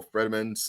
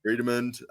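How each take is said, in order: First: "Fredimund" with a short e in the first syllable; alternative pronunciation. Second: "Fredimund" with a long ee in the first syllable; alternative pronunciation. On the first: Podcaster offering another way to say it, "Fredimund" with a short e. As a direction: say "Fredimund" starting like the name Fred. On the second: Podcaster reading out an army list, "Fredimund" said with a long ee. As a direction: say "Fredimund" starting like "freed". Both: Shown as a demonstration. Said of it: "however you wanna say it".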